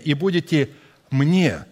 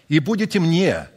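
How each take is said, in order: First: The word мне is said with strong emphasis. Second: The words are read without special emphasis.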